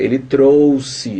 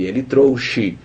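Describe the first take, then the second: First: "trouxe" slowly with an S sound. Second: "trouxe" read with a SH sound. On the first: Teacher contrasting sound and spelling, "trouxe" with an s. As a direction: say "trouxe" with s in the middle. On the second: Teacher contrasting sound and spelling, "trouxe" with a sh. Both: Shown as a demonstration. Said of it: "a gente pronuncia ele trouxe".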